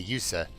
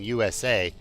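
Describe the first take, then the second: First: It is said as a single word. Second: It is said as three separate letters. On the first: The speaker calls it wrong. "so they just say the word" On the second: The speaker calls it right. "instead of saying U S A"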